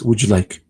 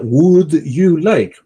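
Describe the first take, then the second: First: The words run together into one new sound. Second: Each word is pronounced separately and clearly. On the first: The speaker calls it right. "pero es would you like" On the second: The speaker calls it wrong. "uno diría would you like"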